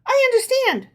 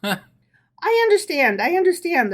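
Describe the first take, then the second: First: Knowing, much higher and arch; sly, in on the joke. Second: Mild sympathetic reassurance, a touch higher; commiserating. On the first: Herschel's wife answering her husband, arch and knowing. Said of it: "said Herschel's wife knowingly". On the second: Rabbi's wife reassuring Herschel, mildly sympathetic. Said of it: "assured him commiseratingly". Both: A narrator's reading.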